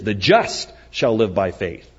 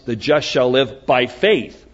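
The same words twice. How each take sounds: First: The stress is on the word just. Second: The stress is on the word faith.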